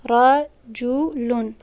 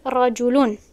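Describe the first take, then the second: First: رجلون stretched out slowly, syllable by syllable; teacher drags out رجلون so students hear it; slow careful model word; very slow demo. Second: Said in the usual way. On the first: Shown as a demonstration.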